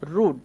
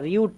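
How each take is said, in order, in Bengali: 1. স্বরধ্বনিটি সাধারণ 'oo', এতে কোনো গ্লাইড নেই। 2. স্বরধ্বনিটি y-গ্লাইড সহ উচ্চারিত হয়, 'yoo'। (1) "রুড মানে হচ্ছে অভদ্র" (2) "এটা রিউড না"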